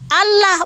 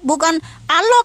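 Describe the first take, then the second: First: The vowels sound like a plain open 'a'. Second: The vowels sound darker, closer to 'o'. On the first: "Kami bacanya secara Latin" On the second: "bukan Allah kami baca"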